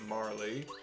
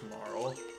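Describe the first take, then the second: First: The name ends with an added 'ee' sound. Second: The name ends on the 'l' sound. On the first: The speaker calls it wrong. "as a kid, I pronounced it Marley" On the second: The speaker calls it right. "but it is just Marl"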